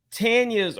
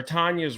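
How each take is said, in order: First: "Tanya's" with the flat a of "tan"; first pronunciation of Tanya's. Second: "Tanya's" with an open ah, TAHN-ya's; second pronunciation of Tanya's. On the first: Host hedging on whose ring it was, "Tanya's" said TAN-ya's. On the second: Host correcting herself on the name, "Tanya's" said TAHN-ya's. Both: Shown as a demonstration. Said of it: "Tanya's or Tanya's".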